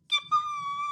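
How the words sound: It is said in a high, squeaky voice.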